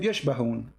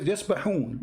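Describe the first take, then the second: First: The second consonant is an sh sound. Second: The second consonant is a plain s sound. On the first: The speaker calls it wrong. "You said يشبهون. ... there's no letter ish there" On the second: The speaker calls it right. "It's called يسبحون in front of me"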